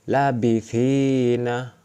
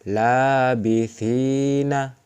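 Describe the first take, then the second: First: The first vowel is short. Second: The first vowel is long. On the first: "Tidak dibaca panjang" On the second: "Ini dibaca panjang"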